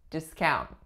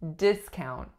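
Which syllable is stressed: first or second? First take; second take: second; first. First: The stress is on the second syllable. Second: The stress is on the first syllable. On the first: It is used as a verb. "As a verb, we could say discount" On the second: It is used as a noun. "the winning syllable, of course, is the first as a noun"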